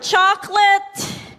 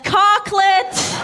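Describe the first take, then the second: First: The word begins with a 'ch' sound. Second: The word begins with a 'k' sound. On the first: "the word chocolate" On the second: "I used to pronounce the word chocolate as cocklet"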